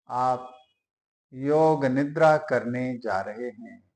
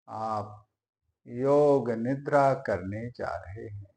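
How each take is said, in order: Both takes have the same delivery.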